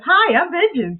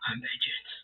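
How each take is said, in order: First: It is said in a cheerful, friendly tone. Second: It is said in a grim, serious tone.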